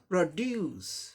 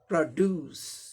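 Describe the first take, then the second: First: The stress is on the second syllable. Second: The same.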